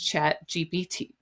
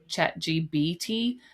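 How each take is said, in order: First: The middle letter is said with a P sound. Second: The middle letter is said with a B sound. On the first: The speaker calls it right. "It's chat G P T" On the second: The speaker calls it wrong. "It just comes out chat G B T, but it's not"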